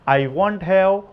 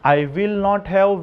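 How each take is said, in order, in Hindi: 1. यह संकुचित एक शब्द 'won't' के साथ बोला जाता है। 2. यह पूरे दो शब्दों 'will not' के साथ बोला जाता है। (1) "विल नॉट का शॉर्ट फॉर्म है वांट" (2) "पहले मैं विल नॉट से बोल के दिखाता हूं"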